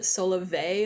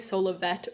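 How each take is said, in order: First: The name ends without a T, French-like. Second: The name ends with an audible T sound. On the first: The speaker calls it wrong. "some people pronounce it Solave like it's French" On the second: The speaker calls it right. "I say Solavet with a T sound at the end"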